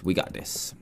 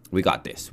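First: A breathless whispered pep talk under time pressure. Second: Said in the usual way. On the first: Real, not acted. Gamer psyching himself up mid-build, whispered. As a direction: whisper it to yourself. Racing the clock, self-encouragement.

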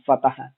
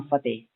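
First: "ਫਤਿਹ" as fa-ta-h, h sounded; three light syllables in "ਫਤਿਹ", fa-ta-ha; sounded final h. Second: "ਫਤਿਹ" as fa-tey, no final h; two-syllable "ਫਤਿਹ", fa-TEY; long-e ending. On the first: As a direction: keep the h audible ending "ਫਤਿਹ". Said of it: "ਫੱਫਾ ਤੱਤਾ ਹਾਹਾ". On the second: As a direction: end "ਫਤਿਹ" on a long open "ey". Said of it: "ਫੱਫਾ ਤੱਤੇ ਲਾਂ". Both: Shown as a demonstration.

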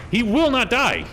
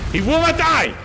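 First: Loud higher yell, a notch below the first; repeated yell. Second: Full-throated furious yell, much higher and louder; frustrated yell. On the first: Gamer yelling again at the enemy who won't die, loud shout. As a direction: shout it again, hammering the point. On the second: Gamer yelling at an unkillable enemy, furious shout. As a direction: roar it out in disbelief at the boss. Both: Real, not acted. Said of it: "Otis doesn't like it when I yell".

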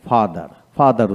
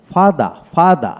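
First: ফাদার said with a clear final r; American pronunciation. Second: ফাদা said slowly with no final r; slow ফাদা ending open; British pronunciation. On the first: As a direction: sound the r at the end of ফাদার. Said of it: "আমেরিকানে". (American উচ্চারণে র সহ ফাদার) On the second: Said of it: "British". (British উচ্চারণে ধীরে র ছাড়া ফাদা) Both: Shown as a demonstration.

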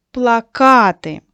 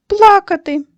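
First: Плакати drawn out slowly on -КА-; slow, loud pla-KA-ty, middle stressed; stress on second syllable. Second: Плакати with ПЛА- high and loud; loud, high PLA-ka-ty, first syllable punched; stress on first syllable. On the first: Teacher confirming the pupils' posters, плакати stressed on -ка-. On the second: Teacher completing the crying sentence, плакати stressed on пла-. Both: Shown as a demonstration. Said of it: "поставити по-різному наголос".

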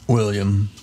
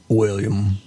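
First: Said in the usual way. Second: William drawn out in a grand, proper way; posh name. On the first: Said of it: "you have to say it like that". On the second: Shown as a demonstration. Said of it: "And you have to say it like that".

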